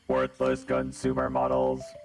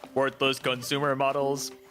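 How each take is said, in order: First: It is said in a put-on character voice. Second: It is said in a normal voice.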